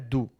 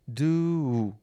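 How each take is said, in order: First: The vowel is short and clipped. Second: The vowel is long and drawn out. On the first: The speaker calls it wrong. "não é do" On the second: The speaker calls it right. "É como se tivessem dois U's é, que, que perduram"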